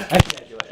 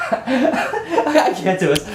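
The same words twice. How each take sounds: First: Said in the usual way. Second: Laughing through I can't do it, high-pitched; giggling, can't hold it together; real laughter breaking in. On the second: Real, not acted. Laughing off his failed impression.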